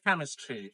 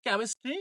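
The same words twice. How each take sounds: First: "কেমিস্ট্রি" as KAM-is-tree with open a; correct pronunciation. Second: "কেমিস্ট্রি" as kem-is-tree, rising; e vowel in "কেমিস্ট্রি", tune left up; common mispronunciation. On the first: Teacher models "কেমিস্ট্রি" correctly as KAM-is-tree. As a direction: open the first vowel of "কেমিস্ট্রি" to a, then fall. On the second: Teacher shows learners' reading, "কেমিস্ট্রি" mispronounced as kem-is-tree. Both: Shown as a demonstration. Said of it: "সঠিক sound হবে".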